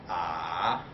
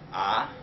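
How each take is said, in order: First: The pitch dips down, then rises. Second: The pitch rises throughout. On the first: "it's like a uh, valley" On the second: "like a raising up ah"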